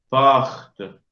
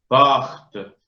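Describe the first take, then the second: No difference in how they are said.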